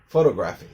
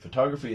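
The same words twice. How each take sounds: First: The stress is on the first syllable. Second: The stress is on the second syllable. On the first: The speaker calls it wrong. "which is also wrong" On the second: The speaker calls it right. "is correct"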